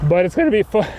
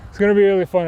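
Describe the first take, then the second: First: Voice crack. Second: Said in the usual way. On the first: Real, not acted. Cyclist reassuring viewers about the downhill, voice cracking. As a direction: voice cracking upward mid-sentence. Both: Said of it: "Nice voice crack".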